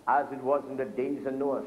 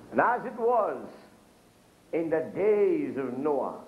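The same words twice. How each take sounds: First: Said in the usual way. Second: Scripture reading. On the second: Acted. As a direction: proclaim the verse from the pulpit. Quotes scripture in preaching.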